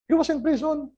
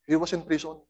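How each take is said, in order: First: Pitched up on "He was in prison"; higher, stressed repeat. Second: Said in the usual way. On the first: Acted. Preacher repeats it higher to the congregation for emphasis. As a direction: stress "He" high.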